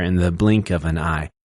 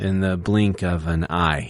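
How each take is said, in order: First: "in the blink of an eye" again, BLINK and EYE stressed; da-da-DUM da-da-DUM on "blink" and "eye"; anapest demo. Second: "In the blink of an eye" slowly, BLINK and EYE stressed; two light syllables, then a hit on BLINK and EYE; anapest demo. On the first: Teacher repeating the example so the class hears it, stress marked. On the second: Teacher sounding out the anapest for the class, slowly. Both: Shown as a demonstration. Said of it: "you can hear that there".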